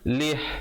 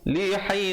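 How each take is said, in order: First: It ends on a silent h consonant. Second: It ends on an i vowel, linked onward. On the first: The reader stops at this point. "Kalau berhenti, kalau pilih untuk waqaf, ha-nya diberikan mati" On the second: The reader continues into the next word. "Tapi kalau sambung"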